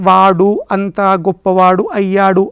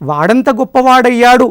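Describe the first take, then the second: First: All four words are said apart. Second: The words merge into two words. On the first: The speaker calls it wrong. "విడివిడిగా చెబితే అంత సౌకర్యవంతంగా అనిపించటం లేదు" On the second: The speaker calls it right. "కలిపి పలుకుతూ ఉంటాం"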